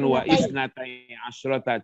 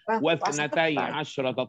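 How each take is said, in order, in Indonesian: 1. Hamzah memisahkan wa dari kata berikutnya. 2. Wa langsung menyambung ke kata berikutnya. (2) "Cukup langsung"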